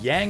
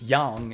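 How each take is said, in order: First: The name is said with English pronunciation. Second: The name is said with Japanese pronunciation. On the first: "kind of the English pronunciation" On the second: "like the Japanese pronunciation"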